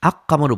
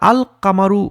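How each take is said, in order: First: The l merges into a doubled k sound. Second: The l is pronounced before the k sound. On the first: The speaker calls it wrong. "আক কামারু বলছি না আমরা, মানে কোনো মার্জ হচ্ছে না" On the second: The speaker calls it right. "যখন আমরা আল কামারু করে ফেলছি"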